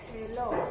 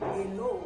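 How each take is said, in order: First: The word starts with a breathy H. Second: The word starts with no H sound. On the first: The speaker calls it right. "le H est quelque peu aspiré" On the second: The speaker calls it wrong. "je ne vais pas dire hello"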